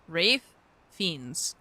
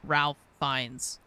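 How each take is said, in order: First: The first name sounds like Rafe, without an L. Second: The first name sounds like Ralph, with an L. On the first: The speaker calls it right. "Fiends with an E sound" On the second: The speaker calls it wrong. "not Ralph Fiennes"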